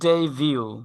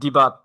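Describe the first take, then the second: First: The word ends with a 'view' sound. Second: The word ends with a 'but' sound. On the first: The speaker calls it right. "এটার সঠিক উচ্চারণ হচ্ছে ডেইভিউ" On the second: The speaker calls it wrong. "But যেভাবে উচ্চারণ করেন, অনেকে বলে ডিবাট"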